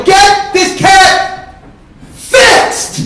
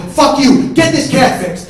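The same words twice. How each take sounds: First: Very high, drawn-out furious shout; enraged bellow at breaking point; full-force scream. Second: Loud, raised-pitch order; first burst of a shouted ultimatum; angry yell. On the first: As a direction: scream each word slowly, pause before the last. Climax of acted shouting match. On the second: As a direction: shout back furiously. Escalating acted shouting match. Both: Acted.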